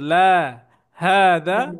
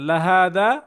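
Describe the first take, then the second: First: La is lengthened, followed by a short pause. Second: La is short and runs straight into hada. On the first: It answers no, then says this is a mosque. The speaker calls it right. "লাকে টান দিয়ে একটু থামবো" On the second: It affirms emphatically that this is a mosque. The speaker calls it wrong. "লাতে টান না দিয়ে যদি এইভাবে বলেন"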